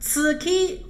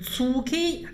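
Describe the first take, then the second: First: The first syllable sounds like Chinese ci. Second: The first syllable sounds like Chinese cu. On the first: "不要发成此k" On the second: "或者是粗k 都不对"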